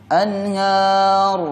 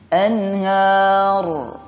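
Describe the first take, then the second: The two takes are said the same way.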